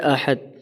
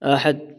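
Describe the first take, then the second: Both takes have the same delivery.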